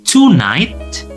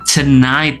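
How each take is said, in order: First: The first vowel is a full 'o' sound. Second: The first vowel is a weak 'uh' sound. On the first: The speaker calls it wrong. "Jadi bukan tonight" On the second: The speaker calls it right. "to-nya berubah menjadi te"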